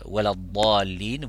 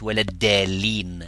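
First: The key consonant is said as an emphatic sound. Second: The key consonant is said as a plain d. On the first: It means those who went astray. The speaker calls it right. "au lieu de dire waladallin" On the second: It suggests a word related to guidance. The speaker calls it wrong. "vous dites waladdallin, parce que le mot dallun, dalin, ça vient du mot guide"

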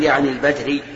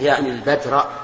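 First: The last word ends with a different vowel. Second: The last word ends with an 'a' vowel. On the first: The word is quoted as it stands, ungoverned. The speaker calls it wrong. "لا تقل يعني البدري" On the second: The word is governed by the verb before it. The speaker calls it right. "أنا عندي منصوبة يعني البدر"

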